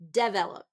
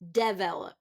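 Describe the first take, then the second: First: The stress is on the first syllable. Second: The stress is on the first syllable.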